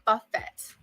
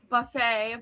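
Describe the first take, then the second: First: The final T is clearly pronounced. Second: The final T is silent. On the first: The speaker calls it wrong. "but I pronounced the T" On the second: The speaker calls it right. "I know it's called buffet"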